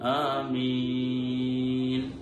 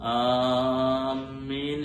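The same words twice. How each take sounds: First: The opening vowel has its normal length. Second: The opening vowel is stretched out too long. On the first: The speaker calls it right. "ആമീൻ എന്നാണ് ഉച്ചരിക്കേണ്ടത്" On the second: The speaker calls it wrong. "കൂടുതൽ നീട്ടി പലരും ഉച്ചരിക്കാറുണ്ട്"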